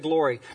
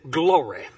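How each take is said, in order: First: The word is said in a plain, ordinary way. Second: The word is said in an exaggerated preacher style. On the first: "they don't say glory" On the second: "They say glory"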